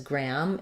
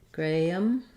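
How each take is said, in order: First: The vowel is a short open ah sound. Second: The vowel is a long ay sound, like gray. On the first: "we do pronounce it as gram in, in the U S" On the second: "In U K, I think they say more Graham with like gray"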